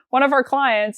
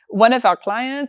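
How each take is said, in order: First: It is spoken in the speaker's normal accent. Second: It is spoken with an imitated French accent. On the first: "I'm just going to stop with the French accent" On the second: "they're going to kill me for my accent here"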